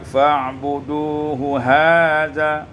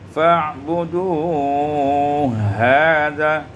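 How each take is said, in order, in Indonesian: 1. Dua bunyi h diucapkan terpisah. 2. Dua bunyi h digabung menjadi satu.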